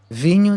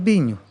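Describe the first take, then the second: First: The word begins with a V sound. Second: The word begins with a B sound. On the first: The speaker calls it right. "em vez de vinho" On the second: The speaker calls it wrong. "isso é problema de de de de troca de letras já"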